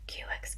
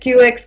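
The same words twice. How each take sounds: First: It is whispered with no voiced tone. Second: It is said in a full speaking voice. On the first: "whisper the words Q X" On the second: "into your full speaking voice"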